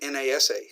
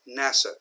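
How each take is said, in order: First: It is spelled out letter by letter. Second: It is pronounced as one single word. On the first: The speaker calls it wrong. "we don't say NASA" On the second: The speaker calls it right. "We pronounce it like a word"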